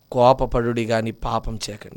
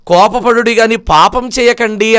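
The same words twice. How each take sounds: First: Hushed scripture reminder; soft verse. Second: Said in the usual way. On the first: Acted. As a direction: drop the verse to a hushed, softer reading. Verse repeated, dropped soft.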